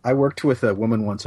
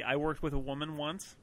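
First: Said in the usual way. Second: Mock quoting. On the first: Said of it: "original line". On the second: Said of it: "There was the".

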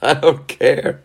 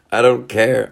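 First: High, defiant I don't care; mock defiance. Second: Said in the usual way. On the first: Vlogger shrugging off the agent, high and defiant. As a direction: toss it off like a sulky kid.

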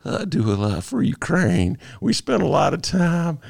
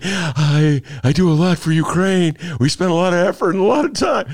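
First: A hint of Clinton's folksy charm; Clinton impression. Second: Trump impression. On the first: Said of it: "How about if I do it as Clinton". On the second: Host redoing his Trump voice for the co-hosts, brash. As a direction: ham up the Trump boast. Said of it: "my Don Trump imitation".

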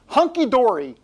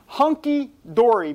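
First: Hunky-dory said louder and higher, a big bouncy fall; announced word. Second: Hunky-dory slowed and savoured, louder; drawn-out repeat. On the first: Host unveils a silly old phrase, hunky-dory punched. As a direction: present hunky-dory as a grand reveal. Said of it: "I'm gonna say the words". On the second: Host repeats his silly phrase, hunky-dory drawn out. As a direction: stretch out hunky-dory with relish. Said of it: "That's right". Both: Acted.

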